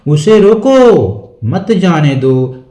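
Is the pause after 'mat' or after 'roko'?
after roko. There is a pause right after 'roko'. He should be stopped. "रोकने की बात हो रही है।"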